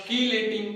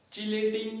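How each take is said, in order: First: कीलेटिंग with a hard "k" at the start; कीलेटिंग opening like "key"; K pronunciation. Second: चीलेटिंग with a "ch" at the start; चीलेटिंग opening like "cheese"; CH pronunciation. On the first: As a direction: say कीलेटिंग as "kee-lay-ting". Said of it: "या". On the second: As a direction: say चीलेटिंग as "chee-lay-ting". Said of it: "या कीलेटिंग". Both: Shown as a demonstration.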